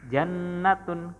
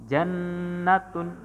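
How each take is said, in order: The two takes are said the same way.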